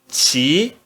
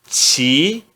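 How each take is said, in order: The two takes are said the same way.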